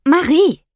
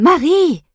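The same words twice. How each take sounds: First: Calling a name across the house, loud and high. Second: Impatient mother calling out loud and high. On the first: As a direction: call her to get up. Mother waking daughter. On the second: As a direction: snap her name, losing patience. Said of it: "Die Ungeduld in der Stimme meiner Mutter nimmt zu". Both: Acted.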